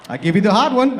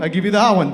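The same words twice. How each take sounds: First: Emphatic offer. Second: Emphatic offer repeated. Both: Retold or imitated. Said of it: "He's like".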